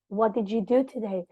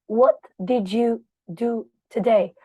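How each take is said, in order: First: The words flow smoothly, linked into each other. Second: Each word is cut off separately, like a robot. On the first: The speaker calls it right. "You need to practice how to link the words together" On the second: The speaker calls it wrong. "Like a robot is speaking"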